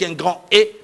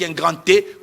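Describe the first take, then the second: First: Grand and E are said separately without linking. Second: A t sound links grand to the E. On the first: The speaker calls it right. "J'aurais bien voulu l'oba" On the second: The speaker calls it wrong. "comme pour dire qu'il y a une liaison"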